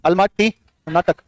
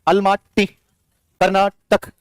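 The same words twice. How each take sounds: First: Almaty Karnataka said slowly with a falling end; slow recap; slower repeat. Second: Each word stretched very slowly; slow memory chant; slow linking drill. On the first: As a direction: repeat the pair slowly, closing it down. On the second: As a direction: draw out Almaty Karnataka so the link sticks. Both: Shown as a demonstration. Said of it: "link up करो".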